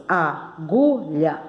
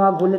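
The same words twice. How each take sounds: First: AGULHA slowly split in three; syllable by syllable. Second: Said in the usual way. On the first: Shown as a demonstration. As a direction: leave gaps between the syllables of "agulha". ("agulha" devagar, em três pedacinhos) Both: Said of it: "agulha tem três sílabas".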